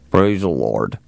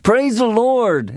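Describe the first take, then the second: First: It is said in a grudging, sullen way. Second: It is said in an enthusiastic, wholehearted way.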